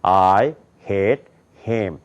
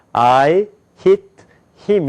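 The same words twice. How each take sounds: First: "I hit him" low and slow from the throat; American-style "I hit him", deep throat placement; American throat-voiced English. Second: "I hit him" placed at the front of the mouth; Korean-style "I hit him", forward and separated; Korean front-of-mouth English. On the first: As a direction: sink "I hit him" back into the throat, drawn out. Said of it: "미국 사람들 목구멍 있는 데서 나요". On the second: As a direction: push "I hit him" out from the lips, word by word. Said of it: "요걸 입 앞에서 나요". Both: Shown as a demonstration.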